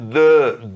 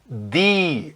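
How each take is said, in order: First: The article is said in its before-consonant form. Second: The article is said in its before-vowel form. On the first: The next word starts with a consonant sound. "tem som de consoante, a pronúncia vai ser the" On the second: The next word starts with a vowel sound. "com som de vogal, the é a pronúncia"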